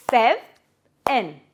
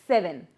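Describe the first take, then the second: First: "sev-en" split by a long pause, first part rising; syllable by syllable. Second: Said in the usual way. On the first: Shown as a demonstration. Teacher dividing a word for kids, "sev-en" syllable by syllable. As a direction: say "sev-en" as two separate beats. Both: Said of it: "divide it into syllables".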